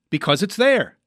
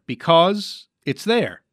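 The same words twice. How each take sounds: First: "Because it's there" higher, in one phrase; dawning realization. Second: "Because it's there" drawn out slowly, word by word; slow piecing together. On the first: Host understanding the mime's answer, pitched-up realization. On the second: Host assembling the charade answer, slow and tentative. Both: Pretend.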